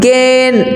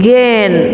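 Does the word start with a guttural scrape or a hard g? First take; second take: hard g; hard g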